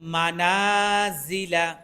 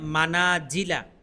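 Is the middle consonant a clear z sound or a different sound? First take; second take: clear z; different sound. First: The middle consonant is a clear z. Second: The middle consonant is not a clear z. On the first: The speaker calls it right. "এখানেও ঝা আসছে" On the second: The speaker calls it wrong. "এরকম যেন না হয় মানাজিলা, সম্পূর্ণ ভুল হয়ে যাবে"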